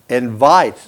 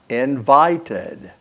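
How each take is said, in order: First: The ending adds no extra syllable. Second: The ending adds an extra syllable. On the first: The speaker calls it wrong. "if you don't put an extra syllable, you can't hear the second D. It would be like invite. You can't hear it" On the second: The speaker calls it right. "So you have to put a break with that vowel, ud"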